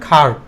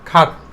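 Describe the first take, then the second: First: The R sound after the vowel is pronounced. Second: The R sound after the vowel is silent. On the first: The speaker calls it wrong. "আমরা উচ্চারণ করতাম খাট" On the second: The speaker calls it right. "খাট উচ্চারণ করব"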